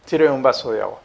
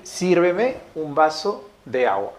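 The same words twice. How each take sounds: First: Said in the usual way. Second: "Sírveme un vaso de agua" said slowly and evenly, each word set apart; slow, careful dictation. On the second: Shown as a demonstration. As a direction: read it out slowly, like dictating to the class. (dictado lento y claro) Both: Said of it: "coloquemos ahí".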